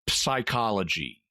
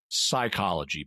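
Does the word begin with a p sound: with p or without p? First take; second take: with p; without p. First: The word begins with a p sound before the s. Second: The word begins with a plain s sound. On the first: The speaker calls it wrong. "We don't say psychology" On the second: The speaker calls it right. "We say psychology because English doesn't allow a P before an S sound on the front"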